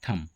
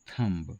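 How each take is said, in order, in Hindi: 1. अंतिम b ध्वनि मूक है। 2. अंतिम b ध्वनि उच्चारित होती है। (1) "इसका सही उच्चारण है" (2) "पर यह भी गलत हुआ"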